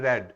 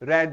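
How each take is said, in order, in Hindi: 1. स्वर छोटा है, 'red' की तरह। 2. स्वर छोटा है, 'red' की तरह।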